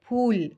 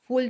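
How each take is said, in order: First: The word begins with a p and a puff of breath. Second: The word begins with a friction sound like f. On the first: It is the Hindi word for flower. The speaker calls it right. "Hindi में क्या होता है?" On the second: It is the English word for a foolish person. The speaker calls it wrong. "फूल तो English का word है, मूर्ख जिसको हम बोलते हैं"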